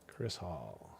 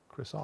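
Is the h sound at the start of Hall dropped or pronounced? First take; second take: pronounced; dropped. First: It is said slowly with the h sound pronounced. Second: It is said quickly with the h sound dropped.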